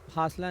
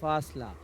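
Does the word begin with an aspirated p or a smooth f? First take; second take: aspirated p; smooth f. First: The first sound is a breathy aspirated p. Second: The first sound is a smooth, soft f. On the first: The speaker calls it wrong. "फासला नहीं पढ़ेंगे" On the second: The speaker calls it right. "फा का तलफ़ुज़ बिल्कुल smooth है"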